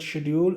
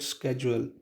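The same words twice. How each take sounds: First: It is said with a British pronunciation. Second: It is said with an American pronunciation. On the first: "in British English we call it schedule" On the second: "in American English we call it schedule"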